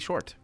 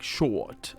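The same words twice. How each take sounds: First: The R after the vowel is pronounced. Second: The R after the vowel is dropped. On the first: "I say short because I go with the R's" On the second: "It's like short. I'm not. I don't say that"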